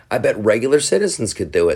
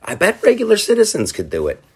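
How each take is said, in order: First: Said in the usual way. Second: High, lightly voiced eager founder; a hammed-up high founding-father voice; founders' voice. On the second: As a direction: pitch it way up, playful and hopeful. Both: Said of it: "the guys who came up with the whole idea".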